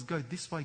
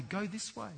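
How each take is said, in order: First: Said in the usual way. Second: The same words "go this way" said higher and softer; higher repeat. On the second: Retold or imitated. God urging the listener again, higher. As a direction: lift the repeat up, gently urging. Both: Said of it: "the voice of God says".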